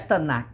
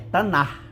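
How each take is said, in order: First: The word ends with a hard k sound. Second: The word ends with a throaty, rasping sound. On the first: The speaker calls it wrong. "Não é Tanakh" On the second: The speaker calls it right. "você puxa na garganta"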